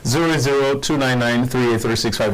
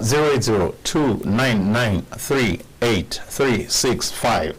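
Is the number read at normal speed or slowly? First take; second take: normal; slowly. First: The number is read at normal speed. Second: The number is read slowly.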